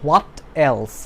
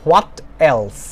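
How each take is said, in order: Both takes have the same delivery.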